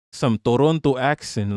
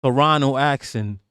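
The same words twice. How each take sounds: First: "Toronto" with both T sounds kept; "Toronto" as spelt, clear "-ronto"; full Toronto. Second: "Toronto" said as "Torono", second T dropped; "Toronto" like a local, ending "-rono". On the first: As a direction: say "Toronto" in full, second T pronounced. Says Toronto fully, then local way. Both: Shown as a demonstration.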